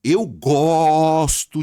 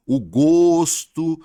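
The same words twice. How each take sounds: First: "gosto" with a long open O, as the verb; loud, stretched "gosto" with a wide-open O. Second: "gosto" with a long closed O, as the noun. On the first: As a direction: say "gosto" with O as in "avó". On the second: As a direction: draw out "gosto" slowly with a rounded, closed O. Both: Shown as a demonstration. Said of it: "Mudou um pouquinho o som".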